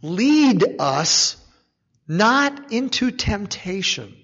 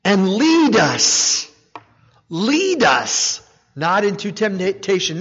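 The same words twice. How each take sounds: First: "not" weighted, slow falling tune; stress on not. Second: "lead" drawn out and falling, slow; stress on lead. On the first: Preacher pointing to the big truth, stress on "not". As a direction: hold "lead", then press on "not". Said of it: "here's a big truth here in this". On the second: Preacher making the congregation hear "lead", slow stress. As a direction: dwell on "lead" each time. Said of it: "Now, think about that". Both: Shown as a demonstration.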